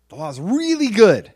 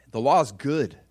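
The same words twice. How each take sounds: First: "really" pushed high and loud; emphatic, raised "really good"; stress on really. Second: Said in the usual way. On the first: Real, not acted. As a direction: hit "really" hard, voice leaping up. Escalated repeat of provocative claim.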